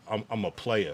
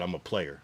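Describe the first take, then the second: First: The words are said separately and clearly. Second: The words run together into one sound. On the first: "if you said like" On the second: "But instead you said"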